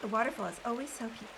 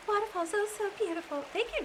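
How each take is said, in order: First: Said in the usual way. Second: Higher, lightly voiced old woman; a hint of an elderly lady; Magdalena voice. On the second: Shown as a demonstration. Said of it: "Magdalena could talk like this".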